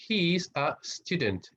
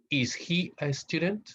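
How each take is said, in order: First: Said in the usual way. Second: Slow question rising on he; teacher demo of a yes/no question; question tune. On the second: Shown as a demonstration. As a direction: model the question with a rising lift.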